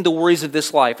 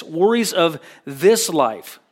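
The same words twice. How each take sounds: First: Said in the usual way. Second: Slower, with this weighted; slow read landing hard on this; stress on this. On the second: Shown as a demonstration. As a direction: lean on the word this, slowly. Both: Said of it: "the emphasis is on the word this".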